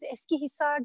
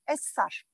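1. Ad tam olarak söylenir, her hece net duyulur. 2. Ad kısaltılarak iki heceye indirilerek söylenir. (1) "Eskihisar diye net konuşan yok" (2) "Essar diyorlar"

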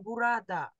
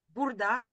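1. Слово произносится со всеми гласными. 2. Слово произносится без средней гласной. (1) "Но правильное написание бурада" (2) "это мы так произносим, мы роняем эту гласную"

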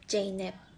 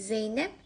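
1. İsim J sesiyle başlar. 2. İsim Z sesiyle başlar. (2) "Z ve J için"

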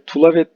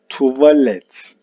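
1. L, v'den önce geliyor. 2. V, l'den önce geliyor. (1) "Tulavet değil" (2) "Doğrusu neymiş?"

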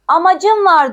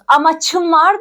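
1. Ekten önceki ünsüz sesli c. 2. Ekten önceki ünsüz sessiz ç. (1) "Amacım var diyoruz" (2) "Amaçım var demiyoruz"

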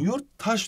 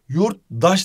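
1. Ek sert t ile başlar. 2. Ek yumuşak d ile başlar. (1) "Yurttaş diyorsun" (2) "yurtdaş demiyorsun"

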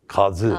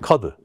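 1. Ortadaki ünsüz z sesidir. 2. Ortadaki ünsüz d sesidir. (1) "Halbuki kazıdır o" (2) "kadı derken kadı de, de"

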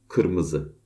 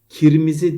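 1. Ünlüler arka ı sesleri gibi söylenir. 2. Ünlüler ön i sesleri gibi söylenir. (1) "değil kırmızı" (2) "bunu i şeklinde söylüyorlar"

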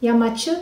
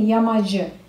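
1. Ortadaki ünsüz sessiz bir ch sesidir. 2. Ortadaki ünsüz sesli bir j sesidir.

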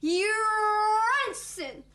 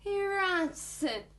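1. Kelime güçlü, dolgun bir sesle söyleniyor. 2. Kelime zayıf, ince bir sesle söyleniyor. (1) "Yapman gereken şu" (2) "Zayıf tabii, olmuyor"

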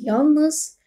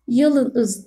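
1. l ile n arasında hiç ünlü duyulmuyor. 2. l ile n arasında bir ünlü duyuluyor. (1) "değil yalnız" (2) "yalınız değil"

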